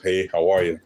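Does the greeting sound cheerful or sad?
sad. The greeting sounds sad and lost.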